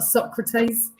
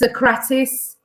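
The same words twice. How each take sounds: First: The name is pronounced the English way. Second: The name is pronounced the Greek way. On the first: The speaker calls it wrong. "It's not Socrates. It drives me mad" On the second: The speaker calls it right. "Can I say that it's Socrates?"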